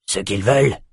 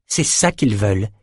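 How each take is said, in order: First: "Ce qu'ils veulent" repeated with a rise on "veulent"; echoed question. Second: "ça" stressed, "veulent" left without a questioning rise; emphatic answer. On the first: Soldier throws his lord's question back, rising on "veulent". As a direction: echo "Ce qu'ils veulent" as a question, lifting the last word. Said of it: "répéta Pfister". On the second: Lord explains the enemy's aim to his soldier, stressing "ça". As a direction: state it as the answer, weight on "ça". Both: A narrator's reading.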